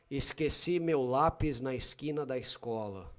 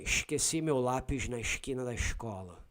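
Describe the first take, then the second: First: Paulista accent, plain hissed S in esqueci, lápis, escola; São Paulo accent. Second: Rio accent, S turned to "sh" in esqueci, lápis, escola; Carioca accent. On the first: Showing a listener how Paulistas say it, São Paulo accent. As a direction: say it like a Paulista, S as a clean "s". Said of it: "Paulistas will say". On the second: Showing a listener how Cariocas say it, Rio accent. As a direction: shush every S like a Carioca. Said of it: "Cariocas will say". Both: Shown as a demonstration.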